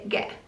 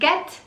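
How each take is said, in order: First: The final T is dropped with a glottal stop. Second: The final T is clearly pronounced. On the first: "they would say" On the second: "instead of"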